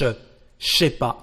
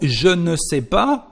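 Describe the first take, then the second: First: Shortened form, starting with a voiceless sh sound. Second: Full form, starting with a voiced zh sound.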